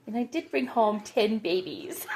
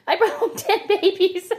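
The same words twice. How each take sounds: First: Said in the usual way. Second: Much higher, laughing through the words; crazy laugh. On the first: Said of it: "the crazy laugh". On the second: Real, not acted. Confessing the ten baby chicks to viewers, laughing. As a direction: giggle it out, giddy at your own excess. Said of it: "Yeah, the crazy laugh".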